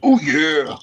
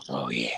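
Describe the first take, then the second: First: Much higher, louder wrestler roar; Macho Man yell. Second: Softer, lower growl of the catchphrase; quiet Macho Man. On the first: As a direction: belt out the catchphrase. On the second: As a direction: mutter the catchphrase. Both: Pretend. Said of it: "That's Macho Man".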